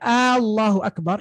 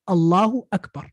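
First: The first vowel of Allahu is stretched long. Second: The first vowel of Allahu is short. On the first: It asks whether God is the greatest. The speaker calls it wrong. "you're asking a question" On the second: It states that God is the greatest. The speaker calls it right. "the salah starts with this statement"

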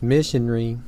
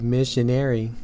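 First: It is said the British English way. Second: It is said the American English way.

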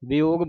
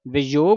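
First: The middle consonant is a soft 'y' glide. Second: The middle consonant is a hard 'j' sound. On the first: The speaker calls it right. "ਵਿयोग ਵਿयोग ਬੋਲਣਾ ਹੈ" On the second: The speaker calls it wrong. "ਵਿਯੋਗ ਨਹੀਂ ਬੋਲਣਾ"

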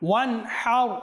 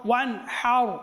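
The two takes are said the same way.

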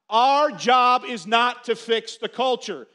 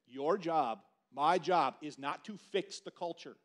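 First: It is said loudly. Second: It is said at normal volume.

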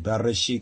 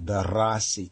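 First: The middle syllable sounds like 'resh'. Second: The middle syllable sounds like 'ras'. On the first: This is how others pronounce it. "They say Bereshit" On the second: This is the speaker's own community's pronunciation. "we say Bereshit, because we know that Rosh is Ras"

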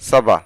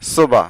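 First: The first vowel sounds like 'a'. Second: The first vowel sounds like 'o'. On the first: The speaker calls it right. "সঠিক উচ্চারণ হচ্ছে সাবা" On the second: The speaker calls it wrong. "অনেকে বলে থাকে সোবা"

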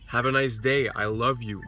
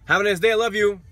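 First: It sounds warm and heartfelt. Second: It sounds flat and mechanical.

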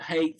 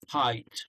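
First: The vowel sounds like the one in 'day'. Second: The vowel sounds like the one in 'eye'. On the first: The speaker calls it wrong. "You pronounced it a bit like hate. So it's not hate" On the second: The speaker calls it right. "so it's height"

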